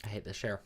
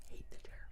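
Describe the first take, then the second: First: Said in the usual way. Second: Whispered under the breath; annoyed whisper to self. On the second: Real, not acted. Annoyed at chair, whispered repeat.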